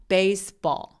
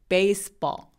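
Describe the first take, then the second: No difference in how they are said.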